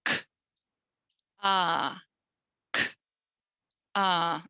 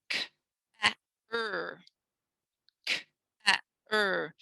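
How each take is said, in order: First: "K, ah" said as two clean sounds, k then ah; right phoneme split. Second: "K, a, er" as three separate sounds, k then a then er; the mistaken letter-by-letter sounding out; wrong sounding out. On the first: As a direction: split car into "k" and "ah". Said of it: "get my duck hands to do it". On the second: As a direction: split car into "k", "a", "er" wrongly. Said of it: "If I did it incorrectly". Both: Shown as a demonstration.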